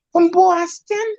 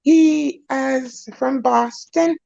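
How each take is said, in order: First: A light Boston accent on "Boston". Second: Said in the usual way. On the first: Shown as a demonstration. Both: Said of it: "I gotta try to talk in a Boston accent".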